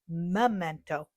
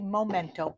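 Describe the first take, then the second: First: The first syllable sounds like 'meh'. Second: The first syllable sounds like 'mo'. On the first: The speaker calls it right. "but it's actually Memento ink" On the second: The speaker calls it wrong. "I always say Momento"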